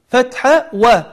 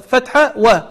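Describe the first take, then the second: The two takes are said the same way.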